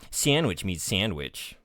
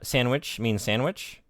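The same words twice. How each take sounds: First: It is said in a sassy, sarcastic tone. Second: It is said in a plain, neutral tone. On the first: The statement is meant mockingly. "reinterpret uh, some of its past statements as sarcasm" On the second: The statement is meant literally. "when it said"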